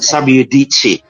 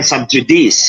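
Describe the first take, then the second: First: The j is a y sound, c is ch. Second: The j is a j sound, c is s. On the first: The speaker calls it right. "J is Y in Latin, and C in between two vowels is chi" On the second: The speaker calls it wrong. "Kung Latin ha, hindi yan subjudice"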